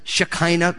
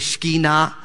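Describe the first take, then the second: First: The word is pronounced the Western English way. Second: The word is pronounced the Hebrew way. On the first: "which we say in the West as Shekinah glory" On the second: "in Hebrew they would say Shekinah. That's the more literal way to pronounce it"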